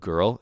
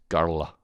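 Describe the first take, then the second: First: The word is said with one syllable. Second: The word is said with two syllables. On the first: "Instead of girl" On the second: "you put an extra syllable"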